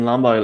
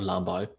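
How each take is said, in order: First: It is said in a neutral accent. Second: It is said in a Northern Irish accent. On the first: The speaker calls it right. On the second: The speaker calls it wrong.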